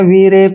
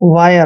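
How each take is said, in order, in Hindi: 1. स्वर 'ee' जैसा है, और अंत 'reh' जैसा होता है। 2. स्वर 'eye' जैसा है, और अंत 'yer' जैसा होता है। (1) "इसको ऐसे नहीं पढ़ना है" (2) "आई आर ई को आयर पढ़ते हैं"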